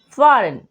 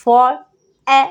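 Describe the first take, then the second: First: Said in the usual way. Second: फॉर, ए in separate pieces with pauses between; sounded out in parts. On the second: Shown as a demonstration. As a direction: break foreign up as फॉर... ए... n, each part firm. (फॉर, ए को अलग-अलग टुकड़ों में बोलकर) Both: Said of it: "ई आई को हम ए पढ़ते हैं".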